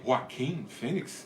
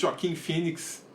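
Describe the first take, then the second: First: The first name has an English pronunciation. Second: The first name has a Portuguese pronunciation. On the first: This is how the name's owners pronounce it. "ou se preferem" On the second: This is the local way of saying the name. "para mim é Joaquim mesmo"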